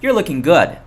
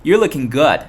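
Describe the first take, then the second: Both takes have the same delivery.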